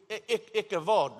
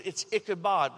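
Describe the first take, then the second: First: Ichabod said the Hebrew way, with a v sound and open o ending; Hebrew pronunciation. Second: Ichabod said the English way, ending in -bod; plain English Ichabod, hard b; anglicized. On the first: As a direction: say Ichabod like a Hebrew speaker, Ikavod. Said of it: "If we actually pronounced it with the Hebrew accent". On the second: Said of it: "we've anglicized it". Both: Shown as a demonstration.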